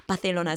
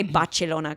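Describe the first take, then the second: First: "Barcelona" said Bathelona, with a th; old lisped pronunciation. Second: "Barcelona" said Bachelona, with a ch; Italian-style pronunciation. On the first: Recalling the habit that gave the ick, lisped "Barcelona". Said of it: "So now I say". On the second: Explaining her new habit, "Barcelona" with Italian ch. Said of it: "that's how they say it". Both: Shown as a demonstration.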